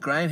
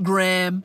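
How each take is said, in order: First: The name is pronounced without an American pronunciation. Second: The name is pronounced with an American pronunciation. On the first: The speaker calls it right. "The word's Graham Hancock" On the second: The speaker calls it wrong. "It's not Graham"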